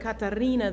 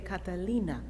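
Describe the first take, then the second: First: The middle consonant is a trilled R sound. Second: The middle consonant is an L sound. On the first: This is how native speakers say the name. The speaker calls it right. "they could not trill that R" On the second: This marks the speaker as a foreigner. The speaker calls it wrong. "they would say Catalina"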